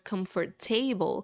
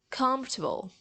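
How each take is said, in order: First: The middle o is sounded as a full vowel. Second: The middle o is dropped, starting with comf. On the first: The speaker calls it wrong. "So you won't say like comfortable" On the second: The speaker calls it right. "but you would say like comfortable"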